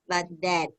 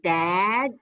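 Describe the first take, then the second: First: The vowel in the word is kept short. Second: The vowel in the word is drawn out long. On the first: The speaker calls it right. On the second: The speaker calls it wrong. "So not A, dad, long"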